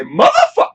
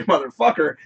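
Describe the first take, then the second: First: Motherfuck cut off before the -er, thrown out a bit louder; clipped catchphrase. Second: Said in the usual way. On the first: Shown as a demonstration. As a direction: drop the ending and say only Motherfuck. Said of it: "I say". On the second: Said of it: "I don't say motherfucker".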